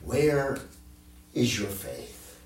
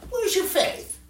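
First: It is asked in a stern, rebuking tone. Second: It is asked in a casual, offhand tone.

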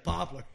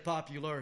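First: The middle syllable is dropped, leaving two syllables. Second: The word is said with three full syllables. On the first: "he would say poplar" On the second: "He wouldn't say popular"

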